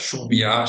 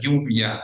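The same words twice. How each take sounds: First: The first consonant is a hissing sh-like sound. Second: The first consonant is a soft y-like fricative. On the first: This is the typical Buenos Aires pronunciation. "the typical Buenos Aires pronunciations" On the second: This is the western regional pronunciation. "the ye, like uh, non-sibilant fricative"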